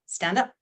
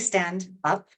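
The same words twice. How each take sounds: First: The words run together with no break. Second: There is a break between the words. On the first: The speaker calls it right. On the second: The speaker calls it wrong.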